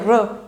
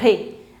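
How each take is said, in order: First: The vowel is a plain unaccented e sound. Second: The vowel is an accented é sound. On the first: The speaker calls it wrong. "it's not a r" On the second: The speaker calls it right. "E is with accent, so it becomes ... it's a re"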